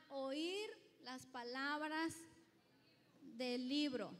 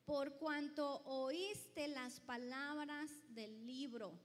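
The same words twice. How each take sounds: First: "Oír" drawn out and slow, each word weighted; stress on Oír. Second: Said in the usual way. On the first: Shown as a demonstration. Preacher repeating the verse so the church hears "Oír" weighted. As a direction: lean hard on "Oír las palabras".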